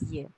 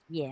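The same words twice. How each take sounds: First: "ye" as yuh, with a schwa; mistaken pronunciation. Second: "ye" as yeh, with an open eh; correct pronunciation. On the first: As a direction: say "ye" wrongly with a dull uh vowel. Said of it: "not pronounced ye". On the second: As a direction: say "ye" with the vowel of yes. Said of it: "Is pronounced ye". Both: Shown as a demonstration.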